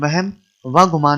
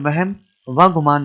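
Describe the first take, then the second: First: The joining 'va' is said as a separate word. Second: The same.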